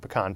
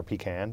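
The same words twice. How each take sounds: First: "pecan" said puh-KAHN, stress on the second syllable. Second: "pecan" said PEE-can, stress on the first syllable. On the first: Host talking holiday pie, "pecan" pronounced puh-KAHN. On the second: Host offering the other pronunciation, "pecan" as a softer PEE-can. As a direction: say "pecan" with a long ee up front, quieter. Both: Shown as a demonstration. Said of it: "depending on how you pronounce it".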